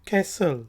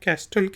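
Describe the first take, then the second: First: The t sound is silent after the s. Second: The t sound is pronounced after the s. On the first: The speaker calls it right. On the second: The speaker calls it wrong.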